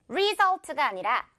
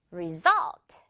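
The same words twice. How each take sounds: First: Result with RE stressed, slowly; wrong stress on re. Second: Result with SULT punched; stress on sult. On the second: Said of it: "뒷부분". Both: Shown as a demonstration.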